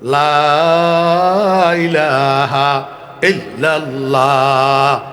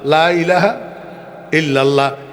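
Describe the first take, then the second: First: The words are stretched out with a drawn voice. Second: The words are said at a normal length.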